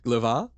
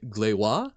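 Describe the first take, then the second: First: The middle consonant is a V sound. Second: The middle consonant is a W sound. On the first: "since you're saying V" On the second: "the ones that make a V sound next to thin make a W sound next to broad"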